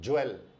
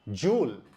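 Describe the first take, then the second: First: The word sounds like jwel, with an e vowel. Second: The word sounds like one syllable, jool. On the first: The speaker calls it wrong. "Not ज्वेल" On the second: The speaker calls it right. "जूल और not ज्वेल"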